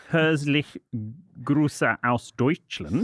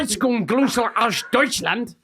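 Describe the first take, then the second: First: Slow, halting German greeting; stumbling German. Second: Slow, high, confident German: Herzlich Grüße aus Deutschland; Grüße stretched out in a hammed German accent. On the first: S0 reads a German greeting, halting and unsure. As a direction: Herzlich Grüße aus Deutschland read slowly and unsure. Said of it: "but I cannot pronounce this". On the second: S1 shows S0 how to say the German greeting, in a German accent. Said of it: "let me do this". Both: Shown as a demonstration.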